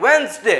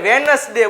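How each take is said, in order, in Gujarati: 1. આ શબ્દ 'wenz-day' તરીકે બોલાય છે. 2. આ શબ્દ લખેલા બધા અક્ષરો સાથે બોલાય છે. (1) "શું બોલાય આને?" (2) "આને આપણે વેનસડે બોલતા હોઈએ છીએ"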